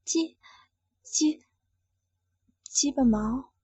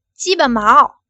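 First: Stammering whisper, reluctant; hesitant stammered whisper; small voice. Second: Said out loud, forced; loud, forced answer; louder. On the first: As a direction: barely breathe the words out, stuttering. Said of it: "只好小声说道". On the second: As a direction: blurt it loudly as ordered. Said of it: "大声点儿". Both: Acted.

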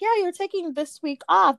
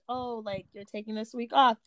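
First: The boss's bright approval, higher and louder; boss's cheery okay. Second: Implied guilt trip. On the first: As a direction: say it like a happy yes. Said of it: "my boss was like". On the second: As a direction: let the guilt trip show under the words. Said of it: "it sounds like more of". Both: Retold or imitated.

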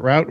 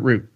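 First: "route" rhyming with "out"; first pronunciation option. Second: "route" said like "root"; second pronunciation option. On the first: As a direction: say "route" with an ow vowel. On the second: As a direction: say "route" with an oo vowel. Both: Shown as a demonstration. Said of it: "Is it route or is it route?".

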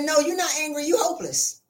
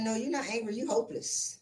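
First: Blunt verdict. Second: Softer, gentle repeat of the verdict; hushed, gentle delivery. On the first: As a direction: deliver it as a punchline. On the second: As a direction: say it quietly, letting it land. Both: Retold or imitated. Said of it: "I said".

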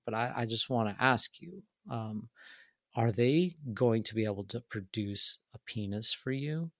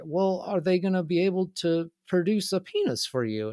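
First: Real serious. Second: Higher-pitched imitation of an awkward questioner; imitated old man. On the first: Retold or imitated. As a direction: ask it gravely, as if confiding a delicate question. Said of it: "gets, like, real serious, and he, like, leans over". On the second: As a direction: repeat it in a put-on, higher voice. Old man repeats his question when challenged.

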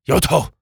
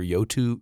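First: Yoto sounded out as "YO-toh"; trying the pronunciation. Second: Yoto said tentatively as "YO-too"; unsure pronunciation. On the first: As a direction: say Yoto with a clear "oh" ending. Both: Shown as a demonstration. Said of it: "How do I say that?".

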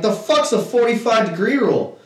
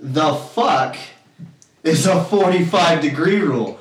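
First: Higher-pitched, baffled challenge; retold disbelief. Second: Long pause after "fuck"; retold exasperated stress. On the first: Pool player questions an unknown rule, baffled. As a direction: challenge it in one quick breath. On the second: Player challenges the rule, exasperated pause after "fuck". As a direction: land "The fuck", stop, then spell out the rest. Repeats the retort, more pissed.

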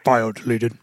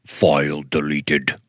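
First: Flat, low robotic announcement. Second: Slow, low monotone robot. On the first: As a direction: read it like a computer. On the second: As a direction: drag it out like a machine. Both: Retold or imitated. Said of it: "And the robot voice goes".

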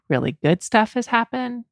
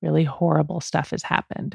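First: "Really good stuff" raised in pitch; lifted listing tune. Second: "Really horrible stuff" dropped a little in pitch and volume; lowered contrasting tune. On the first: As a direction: list "good stuff" on a high, upbeat tune. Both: Real, not acted. Repeats the good and horrible contrast.

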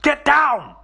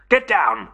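First: Very high, loud, frantic yell; shouted warning. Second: Loud, abrupt order; shouted warning. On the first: Billy warning his friends again as the monster steps, yelling high and loud. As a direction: scream the warning at the top of the voice. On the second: Billy warning his friends of the monster, shouting loudly. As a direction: shout a warning without raising the pitch much. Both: Acted. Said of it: "he shouted".

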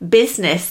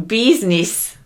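First: Said in the usual way. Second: A light Italian-American "business", first vowel as "bee"; Italian-American accent. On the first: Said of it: "way of pronouncing business". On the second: Shown as a demonstration. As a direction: say "business" as "BEEZ-niss", mock Italian-American. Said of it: "an Italian-American way of pronouncing".

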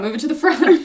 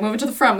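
First: "front" hit higher and louder; repeated louder, pushed. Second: Said in the usual way. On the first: Shown as a demonstration. Host urging her co-host, repeating louder. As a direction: press the point again with more force.

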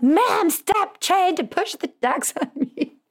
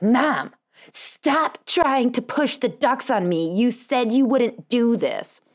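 First: Very high, drawn-out hammed-up outburst; exaggerated high-pitched mock telling-off; mock kid's yelling. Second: Higher, slow, drawn-out scolding; mock exasperated kid, stretching the words; imitated kid's yelling. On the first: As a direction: imitate a daughter's exasperated screech, breaking into laughter. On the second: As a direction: imitate an exasperated daughter telling Mom off. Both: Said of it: "I just got yelled at".

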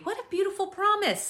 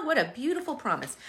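First: High, delighted lift on "What a beautiful promise". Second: Said in the usual way. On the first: Shown as a demonstration. Preacher marvelling at the promise for the congregation, delighted.

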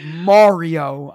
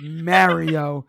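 First: Mario said as MAH-ree-oh with an open ah; Mario with the broad ah of father, MAH-ree-oh; Mario, first syllable like ma; the other Mario. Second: Mario said as MERR-ee-oh with the e of merry; Mario with a flat merry vowel, MERR-ee-oh; Mario, first syllable rhymes with air; his own Mario. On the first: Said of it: "He's like". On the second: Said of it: "And I'm like". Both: Retold or imitated.

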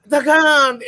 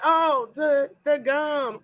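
First: Dramatic gasp. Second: Mock shocked realisation. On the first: Retold or imitated. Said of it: "And I was like". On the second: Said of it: "I was like".

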